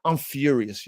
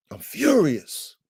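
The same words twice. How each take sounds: First: Said in the usual way. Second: "furious" drawn out slowly; stress on furious. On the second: Real, not acted. Owner venting about the torn tarp, "furious" stretched emphatically. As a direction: lean hard and long on "furious". Repeats his anger with emphasis.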